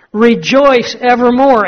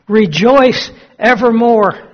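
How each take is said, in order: First: Higher, slow, fuller joyful repeat; joyful exclaim. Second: Higher, slow joyful cry of rejoice; joyful exclaim. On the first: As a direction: build the joy on the repeat. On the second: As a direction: let the joy break out slowly. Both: Acted. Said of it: "he starts laughing and he says".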